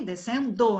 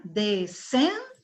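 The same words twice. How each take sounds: First: "Descendo" wrongly stressed on the final DO; tônica errada no DO. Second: "Descendo" slowly split, stress on middle SEN; tônica no SEN. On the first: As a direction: make it descen-DÔ, last syllable of "Descendo" strongest. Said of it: "A mais forte é o do?". ("Descendo" com força errada no DO final) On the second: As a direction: stretch de-SEN-do, middle syllable of "Descendo" strongest. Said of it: "Sílaba forte é no sem". ("Descendo" devagar, com força no SEN) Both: Shown as a demonstration.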